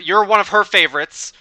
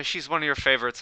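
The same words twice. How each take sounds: First: YOU'RE and HER favorites pushed high and loud; emphatic correction. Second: Said in the usual way. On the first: Acted. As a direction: correct yourself loudly, higher, on "you're one of her". Corrects the swapped pronouns emphatically.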